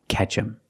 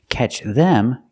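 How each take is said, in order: First: The th sound of them is dropped. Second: The th sound of them is pronounced.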